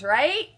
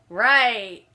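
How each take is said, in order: First: Right with a rising question tune; questioning rise. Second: Right said louder with a firm falling tune; affirming fall. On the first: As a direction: ask the word right, pitch rising at the end. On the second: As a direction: answer your own question with a firm Right. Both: Real, not acted.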